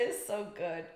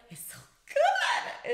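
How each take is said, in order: First: Said in the usual way. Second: Gushing high. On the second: Real, not acted.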